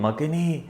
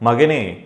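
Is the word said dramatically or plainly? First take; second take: dramatically; plainly. First: It is said dramatically, with strong emotional feeling. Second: It is said plainly, without dramatic feeling. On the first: "അയാൾ ഇങ്ങനെ പറയും" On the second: "ഒരു അമ്മ മകനോട് ഇങ്ങനെ പറയുകയാണ്"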